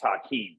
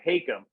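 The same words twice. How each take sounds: First: The name has its traditional Arabic pronunciation. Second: The name has an anglicized, non-Arabic pronunciation. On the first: This is how the name is properly pronounced. "it's an Arabic name, it's Hakim" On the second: This is how the family has always said it. "we've always said Hakim"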